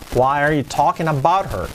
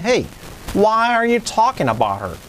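First: It is said in a plain, flat tone. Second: It is said with lively, expressive intonation.

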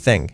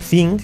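First: The word begins with a soft th sound. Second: The word does not begin with a th sound. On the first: The speaker calls it right. "La TH, como en pensar, thing. Una Z" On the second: The speaker calls it wrong. "No es thing"

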